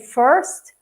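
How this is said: It is said with a North American R. "Someone from North America would say first"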